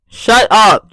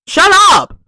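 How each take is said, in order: First: Said in the usual way. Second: Exasperated shout. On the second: Acted. Ranting at loud library patrons.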